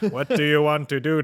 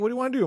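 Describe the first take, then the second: First: It is said in a put-on robot voice. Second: It is said in a natural human voice.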